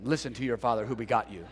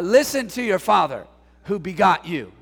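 First: Low, fast, mock solemn; a lightly voiced stern biblical dad; mock stern King James father. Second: Said in the usual way. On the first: Shown as a demonstration. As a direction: lower and rattle it off like a stiff old father. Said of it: "what a horrible upbringing". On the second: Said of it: "I should say that to them".

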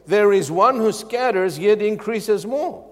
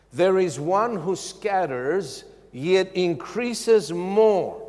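First: Louder, higher proclaiming of the verse; emphatic proclamation. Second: Slow, weighty scripture reading; slow deliberate reading. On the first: Preacher proclaiming the verse loudly to the church. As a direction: proclaim it with force. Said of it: "But the Word of God says". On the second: Preacher reading scripture slowly to listeners. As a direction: let each word land for the congregation. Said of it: "listen carefully". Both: Shown as a demonstration.

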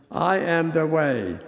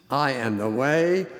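First: "I" hit hard, the rest falling away; emphatic "I" opening the phrase; stress on I. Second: Said in the usual way. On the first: Shown as a demonstration. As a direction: lean on the word "I" alone. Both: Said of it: "It is emphatic".

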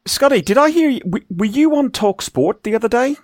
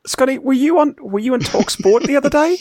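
First: A high, put-on Northern English accent; mock Northern accent. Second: A higher, hammed-up Northern English accent; mock Northern accent again on request. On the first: Host teasing a co-host about a radio spot, mock Northern accent. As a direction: tease him in a jokey Northern accent. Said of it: "trying to do Northern". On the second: Host repeats his radio jibe on request, hammed-up Northern accent. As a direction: redo the line in a jokey Northern accent. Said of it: "Do that again".

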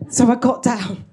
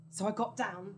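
First: Louder, firm "So I got down"; punchy repeat. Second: Hushed, almost unvoiced "So I got down"; whispered aside. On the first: Telling the audience she hid, punchy and loud. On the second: Telling the audience she hid, hushed. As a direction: drop to a hush on "So I got down". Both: Shown as a demonstration.

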